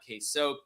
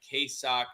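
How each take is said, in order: First: The second part rhymes with 'joke'. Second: The second part rhymes with 'rock'. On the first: The speaker calls it wrong. "not K-Soak" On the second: The speaker calls it right. "K-Sock, not K-Soak"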